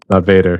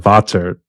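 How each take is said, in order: First: The name is said with an English-style pronunciation. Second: The name is said with a German pronunciation. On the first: The speaker calls it wrong. "People keep pronouncing it wrong" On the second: The speaker calls it right. "It's actually German"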